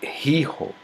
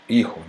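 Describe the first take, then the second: First: The initial h is breathed audibly. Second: The initial h is completely silent. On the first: This is the older pronunciation. "antes se pronunciava" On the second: This is the present-day pronunciation. "ficou mudo, como hijo, né, como é pronunciado hoje"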